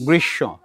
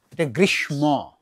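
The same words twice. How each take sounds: First: গ্রীষ্ম said grisho, silent m, doubled sh; the right way, গ্রীষ্ম without m; correct pronunciation. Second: গ্রীষ্ম said grishmo with the m sounded; the mistaken গ্রীষ্ম, m pronounced; wrong pronunciation. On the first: Teacher gives students the right গ্রীষ্ম, short and falling. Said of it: "কি উচ্চারণ?". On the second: Teacher shows the class the wrong গ্রীষ্ম, plainly. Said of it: "নয়". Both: Shown as a demonstration.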